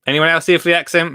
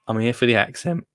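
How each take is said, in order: First: Playful call-out. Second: Said in the usual way. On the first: Acted. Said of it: "now I'm thinking about the accent".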